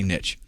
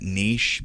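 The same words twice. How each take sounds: First: The word is said with a Southern American pronunciation. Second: The word is said with a French-style pronunciation. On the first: "I'm from the South... so I say niche" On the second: "I think it's a French word and that's the way you're supposed to pronounce it"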